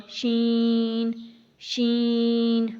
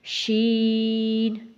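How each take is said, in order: First: شین pushed through the nose, stretched; wrong way, nasal شین; nasal shin. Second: شین drawn out, out of the nose; slow clear شین; correct shin. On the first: Teacher shows the wrong nasal شین. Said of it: "اگر ہم اس کو ناک میں پڑھیں گے تو کیسے ہوگا؟". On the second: Teacher models شین not nasal. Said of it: "اسی طرح شین بھی ہے،". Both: Shown as a demonstration.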